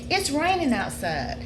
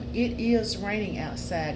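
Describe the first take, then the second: First: It is contracted and said more quickly. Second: It is said as two full separate words. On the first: The speaker calls it right. "You say, ... see how quickly you said it when you used the contraction" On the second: The speaker calls it wrong. "you don't say"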